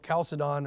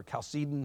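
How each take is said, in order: First: Chalcedon said KAL-suh-don; variant pronunciation. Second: Chalcedon said kal-SEE-dun; alternative pronunciation. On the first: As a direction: say Chalcedon with the first syllable stressed. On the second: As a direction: say Chalcedon with stress on the second syllable. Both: Shown as a demonstration. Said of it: "however you want to say it".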